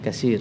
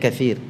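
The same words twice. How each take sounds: First: The middle consonant is an 's' sound. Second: The middle consonant is a 'th' sound. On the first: "ada tha yang dibaca dengan sin"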